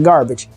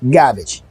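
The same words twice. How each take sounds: First: The r sound in the word is pronounced. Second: The r sound is dropped, like gahbage. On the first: "Not garbage" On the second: "G A H B A G E"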